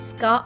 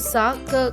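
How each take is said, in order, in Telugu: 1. s మరియు k ఎటువంటి అచ్చు లేకుండా కలిసిపోతాయి. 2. ఒక అచ్చు s మరియు k శబ్దాలను వేరు చేస్తుంది. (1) "స్కా అవుతుంది" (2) "కాకుండా"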